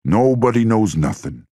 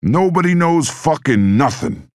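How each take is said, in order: First: Rising fury, higher pitch; bitter heated protest, pitched up; angry outburst. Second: Furious, much higher and louder, slow; furious shout. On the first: Angry mob boss rant. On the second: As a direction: roar it out, dragging each word. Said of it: "he shouted". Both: A narrator's reading.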